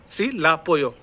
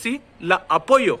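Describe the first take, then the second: First: "सी ला पोयो" with a single a; merged vowels. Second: Slow "सी ला अपोयो", both vowels sounded; separate vowels. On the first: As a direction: join ला straight onto पोयो. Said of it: "आ sound match हो गया". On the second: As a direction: keep ला apart from अपोयो. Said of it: "तो मैं क्या करना चाह रहा हूँ". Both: Shown as a demonstration.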